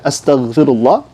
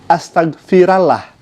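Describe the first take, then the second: First: The vowel before the final 'llah' is 'u'. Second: The vowel before the final 'llah' is 'a'. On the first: The speaker calls it right. "yang seharusnya astagfirullah" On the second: The speaker calls it wrong. "dengan sebutan astagfirallah"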